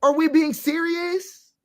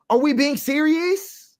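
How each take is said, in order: First: "serious" drawn out slowly, higher still; stronger disbelief. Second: Slow, high disbelief; incredulous. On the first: Pressing listeners again, slower and higher. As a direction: lean harder into the disbelief. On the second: Disbelieving the community talk, slow and high. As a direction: ask it slowly, not believing it. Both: Real, not acted. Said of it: "incredulous repeat".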